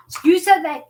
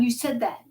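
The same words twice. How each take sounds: First: Higher, louder insistence on "you said that"; insistent plea. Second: Said in the usual way. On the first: Retold or imitated. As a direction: press "you said that" as a claim, raised and forceful. Insisting to God in retold prayer.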